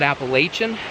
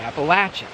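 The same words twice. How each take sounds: First: It is pronounced the way northern speakers say it. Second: It is pronounced the way southern speakers say it. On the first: This is how people from the north say it. "people from the north call it Appalachian" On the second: This is how people from the south say it. "people from the south call it Appalachian"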